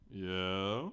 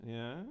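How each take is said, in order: First: Helium voice. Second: Said in the usual way. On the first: Shown as a demonstration. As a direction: voice pitched up like a chipmunk. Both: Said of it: "in my best chipmunk voice or non-best chipmunk voice".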